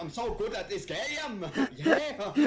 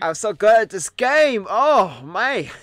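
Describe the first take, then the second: First: High mock English-gone-German accent; mimicked bad English accent. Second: Slow, loud, high put-on English accent; mock English accent. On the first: Friend mimics streamer's attempt, bad English accent. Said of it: "someone who's moved over from Germany". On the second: Streamer plays English version of herself, mock English accent. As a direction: drag out a bad English boast. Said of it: "wanna do English Sleepy".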